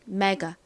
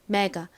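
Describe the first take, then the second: First: The final vowel is a weak, relaxed 'uh'. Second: The final vowel is a weak, relaxed 'uh'.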